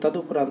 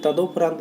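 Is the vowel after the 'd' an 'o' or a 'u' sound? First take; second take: u; o. First: The vowel after the d sounds like u. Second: The vowel after the d sounds like o. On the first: The speaker calls it right. "इसे तदुपरांत बोलते हैं" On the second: The speaker calls it wrong. "इसे तदोपरांत नहीं बोलते"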